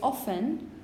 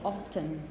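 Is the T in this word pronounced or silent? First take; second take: silent; pronounced. First: The T sound is silent. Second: The T sound is pronounced. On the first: This is the more conservative choice. "more conservative options would say often" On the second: This is the more innovative choice. "more innovative options might say often, pronouncing the T again"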